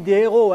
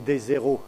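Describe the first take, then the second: First: There is no z sound before héros. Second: A z sound links des to héros. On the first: The speaker calls it right. "je n'ai pas fait la liaison" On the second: The speaker calls it wrong. "Autrement, ça aurait fait des héros"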